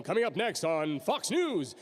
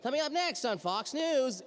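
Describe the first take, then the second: First: Slow, drawn-out news promo read; announcer read. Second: High-pitched, slow, off-target promo read; botched announcer read. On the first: Voice actor demonstrating practice recording, announcer read. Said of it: "That's not what I think I sounded like". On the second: Voice actor hearing a playback gone wrong, botched announcer read. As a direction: do a bad, high news-bumper voice. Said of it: "and you sound like". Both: Shown as a demonstration.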